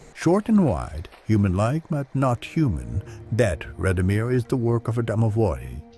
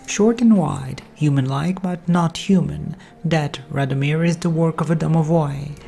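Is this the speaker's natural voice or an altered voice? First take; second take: altered; natural. First: It is said through a voice changer. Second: It is said in the speaker's natural voice.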